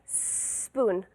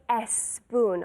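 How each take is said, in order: First: The word begins directly with a long s. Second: An extra vowel sound comes before the s. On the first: The speaker calls it right. "use the S as if there were three S's before" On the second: The speaker calls it wrong. "we don't say S spoon"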